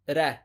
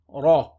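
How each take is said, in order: First: The r sound is light and thin. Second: The r sound is heavy and thick. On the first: The speaker calls it wrong. "Common mistake is to say ra" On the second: The speaker calls it right. "so we pronounce it heavy. So we say ra"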